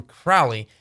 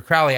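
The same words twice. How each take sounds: First: "Crowley" said as CRAU-lee; chosen pronunciation. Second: "Crowley" said as CROH-lee; refused pronunciation. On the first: Minister insists on his own choice, "Crowley" rhyming with "cow". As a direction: rhyme the first syllable of "Crowley" with "cow". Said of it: "I'm gonna call him Crowley". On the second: Minister refuses the requested name, "Crowley" as CROH-lee. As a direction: give "Crowley" the long O of "go". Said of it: "asked me to do and call him". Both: Shown as a demonstration.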